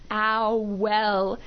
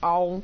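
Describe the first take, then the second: First: The word is split into two separate syllables. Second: The word is said as one unclear syllable. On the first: "he was really, really going to enunciate that word" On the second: "the first few times he said it, it's kind of just was like, oh, owl"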